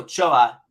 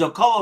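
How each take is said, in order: First: The name is said the Spanish way. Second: The name is said the Italian way. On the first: The speaker calls it right. "Ochoa, Espanol" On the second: The speaker calls it wrong. "Ocoa would be Italiano"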